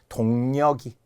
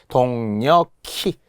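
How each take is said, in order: First: The final consonant links as a plain g. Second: The final consonant links as an aspirated k. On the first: The speaker calls it wrong. "모두 틀린 겁니다" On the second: The speaker calls it right. "키읔이 그대로 올라가는 거니까요"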